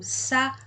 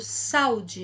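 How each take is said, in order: First: "saúde" split as sa, u, de with pauses; said separately. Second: Said in the usual way. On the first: Shown as a demonstration. Teacher correcting the joined word, "saúde" syllable by syllable. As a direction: break "saúde" into three drawn-out syllables. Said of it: "Eu falo separado". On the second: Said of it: "eu não falo saúde".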